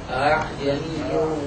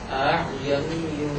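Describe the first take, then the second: No difference in how they are said.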